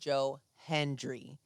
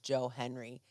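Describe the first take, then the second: First: The surname is said with a d sound. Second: The surname is said without a d sound. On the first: The speaker calls it right. "There's a D in there" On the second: The speaker calls it wrong. "it's not Joe Henry"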